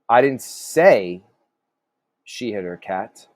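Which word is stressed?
say. The stress falls on the word say. The speaker implied it without saying it. "So maybe you kind of implied it"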